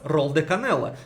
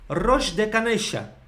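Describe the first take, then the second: First: The double L sounds like a plain L. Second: The double L sounds like 'sh'. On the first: It is treated as a foreign word exception. The speaker calls it right. "здесь это слова исключения, как иностранные слова. И они будут так называться" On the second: It follows the usual local pronunciation rule. The speaker calls it wrong. "по правилам аргентинского языка, как это будет звучать?"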